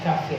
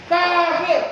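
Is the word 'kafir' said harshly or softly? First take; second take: softly; harshly. First: The word is said quietly and gently. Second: The word is said loudly and harshly. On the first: It does not sound rough or offensive. The speaker calls it right. "intonasi nada dipelankan" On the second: It sounds rough and offensive. The speaker calls it wrong. "Wah, itu kelihatannya keras kan"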